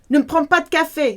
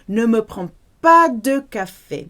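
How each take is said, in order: First: The sentence is spoken at a quick pace. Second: The sentence is spoken at a slow, careful pace.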